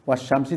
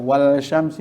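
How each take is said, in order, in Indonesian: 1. Bunyi l menyatu ke dalam bunyi sh yang dobel. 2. Bunyi l dilafalkan jelas sebelum sh.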